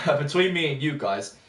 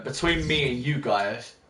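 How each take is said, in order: First: Said in the usual way. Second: Talking with a pen in the mouth; words blocked by a pen between the lips. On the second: Real, not acted. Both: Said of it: "I just shoved my pen in my mouth".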